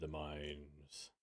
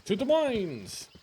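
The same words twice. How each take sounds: First: Much lower and softer, ominous. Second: Slow, grand call to adventure; rally the party onward; rallying cry. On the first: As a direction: drop it dark and hushed. Ominous echo of own call. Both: Acted.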